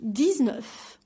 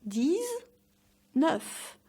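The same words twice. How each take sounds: First: Said in the usual way. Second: "dix-neuf" in two parts, long rising deez, pause, then nuf; slow syllable-by-syllable "dix-neuf"; broken-down pronunciation. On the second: Shown as a demonstration. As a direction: stretch "dix" high with a z, pause, finish "neuf". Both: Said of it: "Say it more like".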